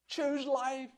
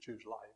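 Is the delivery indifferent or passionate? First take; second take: passionate; indifferent. First: It is said with intense, pleading feeling. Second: It is said casually, without feeling or urgency. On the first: The one speaking urgently begs the listeners to choose. The speaker calls it right. "there's a passionate pleading with them" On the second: The choice hardly matters to the one speaking. The speaker calls it wrong. "say it in a lackadaisical way"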